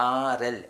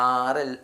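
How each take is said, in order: The two takes are said the same way.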